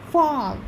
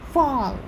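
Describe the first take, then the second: No difference in how they are said.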